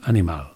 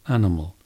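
First: All three vowels are said as full vowels. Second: The last two vowels are reduced to schwa. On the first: The speaker calls it wrong. "will bring pure vowels to each of those three" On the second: The speaker calls it right. "The last two are a"

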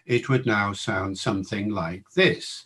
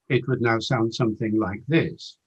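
First: It is spoken at a slower pace. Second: It is spoken at a quicker pace. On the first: "if we were to talk at 200 syllables a minute" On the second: "if we were to start talking at 250 syllables a minute"

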